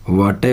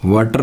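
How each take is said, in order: First: "वाटे" with no final r; r-less "वाटे"; correct pronunciation. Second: "वाटर" with final r sounded; Indian-style "वाटर"; wrong pronunciation. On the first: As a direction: end "वाटे" on an open vowel. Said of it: "वाटे होता है". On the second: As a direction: pronounce the r ending of "वाटर". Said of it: "वाटर नहीं होता". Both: Shown as a demonstration.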